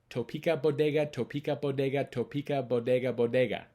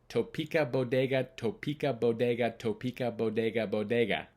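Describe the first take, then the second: No difference in how they are said.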